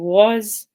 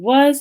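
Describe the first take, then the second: First: The vowel is a lower, backer aw sound. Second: The vowel is a central uh sound. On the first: The speaker calls it wrong. "substitute the central vowel uh with a lower and backer vowel like aw" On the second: The speaker calls it right. "instead of saying"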